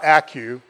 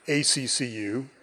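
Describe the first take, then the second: First: The name is said as one sneeze-like word. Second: The name is spelled out letter by letter. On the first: The speaker calls it wrong. "not ACCU. Whenever I hear somebody say ACCU, I want to say Gesundheit" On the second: The speaker calls it right. "I am the current chair of ACCU"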